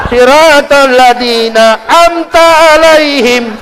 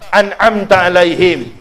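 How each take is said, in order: First: Slow, high "amta" with the "an" dropped; mock imam misreading "amta"; wrong recitation. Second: Correcting the reading of "an'amta"; correct recitation. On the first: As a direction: recite "amta alaihim" drawn out and mangled. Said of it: "Salah baca suratul Fatihah". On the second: Shown as a demonstration. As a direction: recite "an'amta alaihim" properly and slowly. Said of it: "baca Al-Fatihah saya salah".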